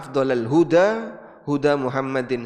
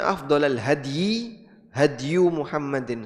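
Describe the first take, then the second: First: The word is read as huda, ending in a vowel. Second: The word is read as hady, without a long vowel. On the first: "Bisa juga dibaca" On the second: "Bisa dibaca"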